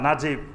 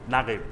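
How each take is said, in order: First: The middle consonant is a 'j' sound. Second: The middle consonant is a hard 'g' sound. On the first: This matches how the name is written. "লেখে নুন জিম" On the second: This is how Egyptians actually say it. "কিন্তু উচ্চারণ করে নাগিব"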